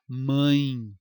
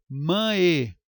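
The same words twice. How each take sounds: First: MÃE as one nasal syllable gliding into i; everyday pronunciation. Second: MÃE said as two syllables, mã-É; split, wrong pronunciation. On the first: Teacher showing how everyone says it, MÃE as mãin. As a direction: say mãe as a single drawn-out mãin. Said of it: "Todo mundo fala mãe". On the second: Teacher mocking a spelling reading, MÃE as mã-é. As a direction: hit a full separate E at the end of mãe. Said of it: "alguém fala mãe?". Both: Shown as a demonstration.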